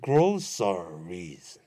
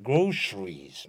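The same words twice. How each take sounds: First: It is said with an 's' sound. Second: It is said with an American 'sh' sound.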